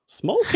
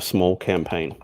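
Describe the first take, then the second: First: It is said in a mocking, sarcastic tone. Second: It is said in a plain, flat tone. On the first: "you need to change the tone of your voice with that though"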